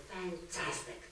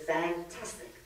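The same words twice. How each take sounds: First: "Fantastic." much softer, with a falling tune; dry fantastic. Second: "Fantastic." softer, ending on a rising tune; a bright, polite reply with a lift at the end. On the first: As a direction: murmur it politely flat, hiding disdain. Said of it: "So the third lady says". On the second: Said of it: "So again, the third lady says". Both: Retold or imitated.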